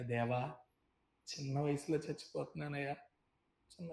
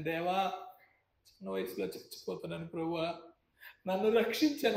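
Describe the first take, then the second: First: Faint drowning prayer. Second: Desperate prayer. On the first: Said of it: "నా చేయి పైకెత్తాను". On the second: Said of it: "ఒక్క మాట ప్రార్థన చేసి". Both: Retold or imitated.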